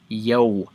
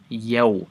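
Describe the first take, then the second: No difference in how they are said.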